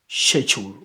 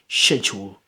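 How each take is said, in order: No difference in how they are said.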